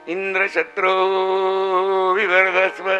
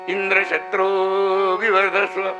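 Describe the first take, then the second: The two takes are said the same way.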